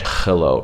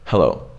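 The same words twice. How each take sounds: First: "hello" with a scraping kh for the H; "hello" begun on a hard throaty fricative; harsh H. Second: "Hello" with a light, breathy English H; "Hello" said low and easy, H barely breathed; relaxed H. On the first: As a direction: rasp the H of "hello" at the back of the throat. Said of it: "It's not a harsh hello". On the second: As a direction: let the H of "Hello" out as plain air, no friction. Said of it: "You just go". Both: Shown as a demonstration.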